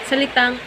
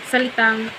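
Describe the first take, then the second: No difference in how they are said.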